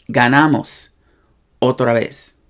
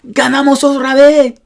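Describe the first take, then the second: First: Said in the usual way. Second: High, loud victory cheer; celebrating. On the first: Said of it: "Emphasis or context here is celebrating". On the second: Shown as a demonstration. Teacher acting out a repeated victory, celebrating loudly. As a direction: cheer it out like a winning fan. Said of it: "celebrating a repeated victory".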